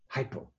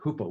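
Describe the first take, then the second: First: The first vowel sounds like 'eye'. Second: The first vowel sounds like 'oo'. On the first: This is the usual English pronunciation. "we in the English world ... we say hypo" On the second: This is the original Greek pronunciation. "In the Greek, it's hupomeno ... we don't say that hupo"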